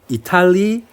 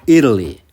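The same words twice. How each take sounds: First: It is said with a Japanese-style accent. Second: It is said with an English accent. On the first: The speaker calls it wrong. "앞에 발음은 그냥 일본어적으로 읽는 거고" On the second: The speaker calls it right. "두 번째는 어, 영어 발음으로"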